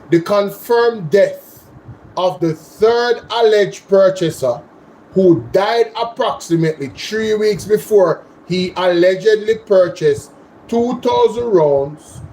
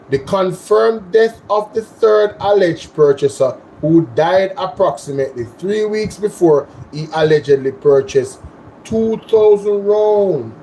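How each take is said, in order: First: It is read at a slower pace. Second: It is read at a faster pace.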